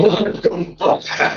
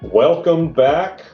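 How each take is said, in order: First: It is said in an intense way. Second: It is said in a calm, ordinary way.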